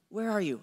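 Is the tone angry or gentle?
gentle. It is said gently and invitingly.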